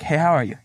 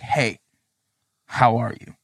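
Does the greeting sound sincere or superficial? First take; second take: superficial; sincere. First: The greeting sounds casual and superficial. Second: The greeting sounds sincere and caring.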